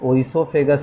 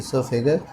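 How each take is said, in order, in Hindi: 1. शब्द की शुरुआत में एक सुनाई देने वाली 'o' ध्वनि है। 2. शब्द की शुरुआत में कोई 'o' ध्वनि नहीं है। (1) "या ओइसोफेगस आप कह लो" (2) "ओ इसका साइलेंट होता है, लेकिन एक्चुअल में होता है ईसोफेगस"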